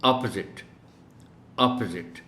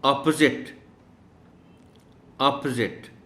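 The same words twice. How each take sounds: First: अपोजिट as अप्ज़िट; correct opposite. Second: अपोजिट with a short अ and जिट; correct opposite. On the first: Teacher repeats correct अपोजिट. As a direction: say अपोजिट short, ending in जिट. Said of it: "और फिर जिट है". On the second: Teacher pronounces अपोजिट correctly for pupils. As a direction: say अपोजिट with clipped middle. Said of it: "अब सुनिए". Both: Shown as a demonstration.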